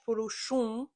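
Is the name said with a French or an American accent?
French. It is said with a French accent.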